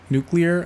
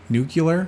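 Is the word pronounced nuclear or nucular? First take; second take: nuclear; nucular. First: It is said the standard way, new-klee-er. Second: It is said as new-kyuh-ler. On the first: This is the usual way to say it. "instead of saying nuclear" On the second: This copies how a politician said it. "I said nuclear? Because of him"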